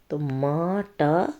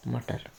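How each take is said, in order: First: मटर stretched very slowly, each syllable drawn out; teacher drawing out मटर slowly so children can follow; slow sounding out. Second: Said in the usual way. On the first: Shown as a demonstration. Teacher sounds out मटर very slowly for children.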